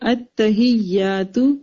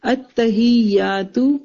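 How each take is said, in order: Both takes have the same delivery.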